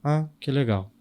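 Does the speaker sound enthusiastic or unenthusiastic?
unenthusiastic. It is said flatly, without any enthusiasm. The speaker does not really like it.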